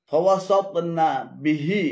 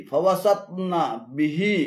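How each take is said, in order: The two takes are said the same way.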